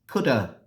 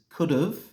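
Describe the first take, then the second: First: It ends in a weak 'uh' vowel. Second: It ends with a short 'v' sound. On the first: "the reduced form is" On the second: "The contracted form of this is"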